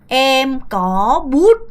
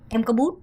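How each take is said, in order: First: The phrase is said at a slower pace. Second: The phrase is said at a faster pace.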